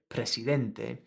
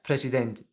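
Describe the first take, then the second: First: The final vowel is clearly pronounced. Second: The final vowel is swallowed and dropped. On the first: The speaker calls it right. "you've got to pronounce that e at the end" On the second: The speaker calls it wrong. "he's kind of dropping that presidente"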